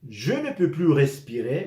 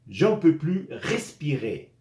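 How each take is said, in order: First: The words je and ne are said fully apart. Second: Je and ne are squeezed together into one syllable.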